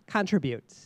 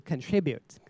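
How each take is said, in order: First: "contribute" stressed on the first syllable, CON-tribute, like a noun; demonstrating the mistake, "contribute" said as CON-tribute; wrong stress. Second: "contribute" stressed on the second syllable, con-TRI-bute; correct verb stress. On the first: Judge imitating contestants' misplaced stress, CON-tribute. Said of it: "I heard contribute". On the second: Judge showing contestants the correct verb stress, con-TRI-bute. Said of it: "it should be contribute as a verb". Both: Shown as a demonstration.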